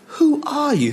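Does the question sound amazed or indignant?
indignant. The question sounds indignant and challenging. The asker resents the person's claims and challenges their authority. "Who do you think you are saying these things?"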